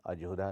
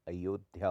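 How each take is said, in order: First: अजोधा said as ajodha; j and bare dh in अजोधा. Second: Said in the usual way. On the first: Shown as a demonstration. Teacher shows a common error, अजोधा with j. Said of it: "नहीं होता". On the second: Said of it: "होता है".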